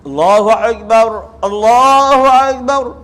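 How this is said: Each phrase ends with a stop before the next.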